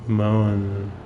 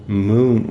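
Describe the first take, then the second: First: The vowel is a long 'oh' sound. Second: The vowel is a long 'oo' sound. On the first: The speaker calls it right. "M O E N is Moen" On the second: The speaker calls it wrong. "You just don't say moon when you put M O E N"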